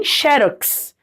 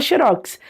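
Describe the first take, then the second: First: Xerox as XÉ-rox, first syllable open and strong; stress on XE. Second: Xerox as xe-RÓX, weight on the last syllable; stress on ROX. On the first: Teacher quoting other regions' form, xerox stressed on XE. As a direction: hit XE in xerox. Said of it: "a tônica no xe". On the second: Teacher giving the home region's form, xerox stressed on ROX. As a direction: land on an open ROX in xerox. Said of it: "de onde eu venho". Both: Shown as a demonstration.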